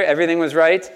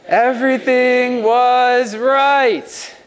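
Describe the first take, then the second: First: Said in the usual way. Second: "Everything was right" slow, high, every word stretched; said together slowly. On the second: Shown as a demonstration. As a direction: lead the crowd, drawn out. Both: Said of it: "Can we say that together?".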